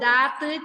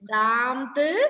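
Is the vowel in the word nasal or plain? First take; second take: plain; nasal. First: The vowel is plain, with no nasal sound. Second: The vowel is nasal, with an added 'm' sound. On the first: The speaker calls it wrong. "അല്ലാതെ ദാത്ത് ചാത്ത് എന്നൊന്നും അല്ല വായിക്കേണ്ടത്" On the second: The speaker calls it right. "ഒരു ആം എന്നുള്ളൊരു പ്രൊണൗൺസാ വരുന്നത് അവിടെ"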